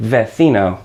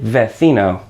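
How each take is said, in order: First: The c is said with a th sound. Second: The same.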